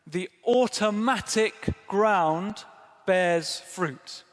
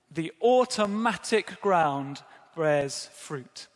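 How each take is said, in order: First: The automatic ground bears fruit, very slow, automatic stressed; emphatic reading. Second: Said in the usual way. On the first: Shown as a demonstration. Preacher revealing the literal Greek meaning, slow and weighty. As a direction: linger on automatic, then drop on fruit. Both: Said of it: "what it literally says is".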